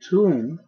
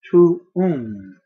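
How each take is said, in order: First: A single U vowel is sounded. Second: Two separate U vowels are sounded. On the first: The speaker calls it wrong. "it's not tuum, T U M" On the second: The speaker calls it right. "it's T U U M"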